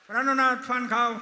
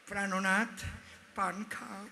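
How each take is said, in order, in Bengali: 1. ডাকটা উঁচু গলায় বলা হচ্ছে। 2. ডাকটা নরম ও মিষ্টি সুরে বলা হচ্ছে।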